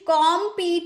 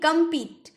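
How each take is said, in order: First: The first vowel is a full 'o' sound. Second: The first vowel is a short 'uh' sound. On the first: The speaker calls it wrong. "कॉम्पीट नहीं बोलेंगे" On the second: The speaker calls it right. "कॉम्पीट नहीं, कम्पीट"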